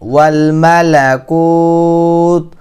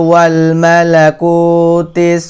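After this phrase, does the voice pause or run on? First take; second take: pauses; runs on. First: It stops here, with a long drawn vowel. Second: It runs on, with a short vowel. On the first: "যদি আমি অক্ষ করে দেই তাহলে টান দিবেন তিন আলিফ পরিমাণে" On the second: "সম্পূর্ণ একসাথে বলুন"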